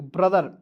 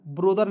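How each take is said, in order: First: ब्रदर with a short a, "bradar"; ब्रदर as the right reading; correct pronunciation. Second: ब्रोदर with an o vowel, "brodar"; ब्रोदर as the mistaken reading; wrong pronunciation. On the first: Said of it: "तो पढ़ेंगे ब्रदर". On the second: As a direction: say ब्रोदर with a round o. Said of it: "ब्रोदर नहीं पढ़ेंगे". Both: Shown as a demonstration.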